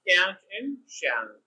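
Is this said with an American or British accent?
American. It is said with an American accent.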